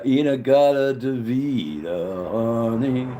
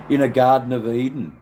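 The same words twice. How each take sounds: First: Sings "In a garden de vida" slowly, the words run together; sung, slurred song lyric. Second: "In a garden of Eden" with each word crisp and separate; clear correct title. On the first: Retold or imitated. Telling [name] about the song title, slow slurred singing. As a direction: croon it like the slurred record. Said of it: "they couldn't get it right on the day, or he was drunk". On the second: Shown as a demonstration. Correcting the viewers' song title, loud and clear. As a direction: set the record straight, every word clear. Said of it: "That's right".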